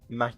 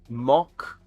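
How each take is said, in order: First: The vowel is like in 'back'. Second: The vowel is like in 'lock'. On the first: This is the American way to say it. "Ma Mac is in U S" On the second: This is the British way to say it. "Mock is in U K"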